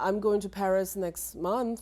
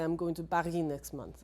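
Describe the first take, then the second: First: Paris is pronounced with English sounds. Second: Paris is pronounced with French sounds. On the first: The speaker calls it right. "So if I say uh" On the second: The speaker calls it wrong. "I'm not going to say"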